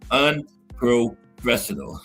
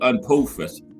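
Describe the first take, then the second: First: The word is said slowly and carefully. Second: The word is said quickly, dropping the R. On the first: "I got to say them slow" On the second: "I say it fast. I always drop the R"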